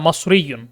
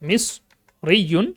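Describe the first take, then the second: First: The first vowel sounds like 'a'. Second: The first vowel sounds like 'i'. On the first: This is the regional form used locally. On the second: This is the standard form.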